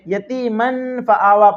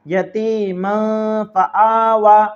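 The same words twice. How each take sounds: First: The n sound is pronounced clearly, not nasalized. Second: The n sound is hidden in the nose. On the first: The speaker calls it wrong. "तो ये तरीका गलत है।" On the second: The speaker calls it right. "आपको नाक में छुपाकर पढ़ना है।"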